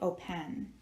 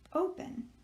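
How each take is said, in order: First: The stress is on the second syllable. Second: The stress is on the first syllable. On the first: The speaker calls it wrong. "we do not say open" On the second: The speaker calls it right. "we say open. So we are accenting the first syllable"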